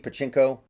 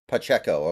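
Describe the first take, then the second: First: It has an n sound before the k. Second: It has no n sound before the k. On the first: The speaker calls it wrong. "I feel like I have to be pronouncing it wrong" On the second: The speaker calls it right.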